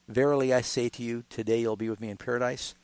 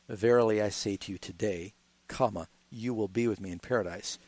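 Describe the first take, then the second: First: The pause comes before the word today. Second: The pause comes after the word today.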